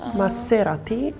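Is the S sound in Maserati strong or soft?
strong. The S sound is said strongly. This is how it is said in Spain. "Maybe Spain is even stronger than ours"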